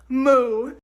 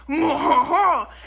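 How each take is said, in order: First: It is a moo in an American accent. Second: It is a moo in a French accent.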